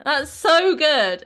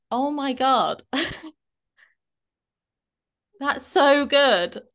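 First: High, loud, slow "That's so good" with a long stressed so; big drawn-out praise, louder; emphatic praise. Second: High, slow gushing praise; drawn-out delighted "so good"; excited praise. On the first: Shown as a demonstration. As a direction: really lean into the word so. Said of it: "like I'm saying should". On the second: Retold or imitated. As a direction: gush over her result. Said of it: "I said to her".

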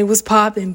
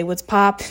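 First: "What's poppin'" with the full poppin', louder; the form she doesn't use. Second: "What's pop?" clipped to pop, a bit louder; casual slang greeting. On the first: Showing the greeting she avoids, "What's poppin'" in full. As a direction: give "What's poppin'" the full two syllables. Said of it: "I don't say". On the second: Greeting friends, "What's pop?" with the short clipped word. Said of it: "or say". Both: Retold or imitated.

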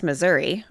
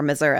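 First: Said in the usual way. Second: Missouri ending in an "uh" sound; regional pronunciation. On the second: Shown as a demonstration. Host gives her favored version of the state's name, Missouri ending in "uh". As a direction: say Missouri as "Mizzur-uh". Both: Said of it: "as I like to say".

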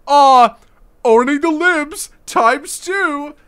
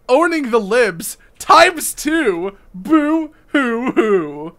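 First: High, slow sneering imitation; mocking whiny voice. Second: Slow, high mock sobbing boo hoo; hammed-up fake sobbing; fake crying. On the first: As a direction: parody the tweeter with a sneer. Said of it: "this fucker's like". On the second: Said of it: "let's see what he has to say".

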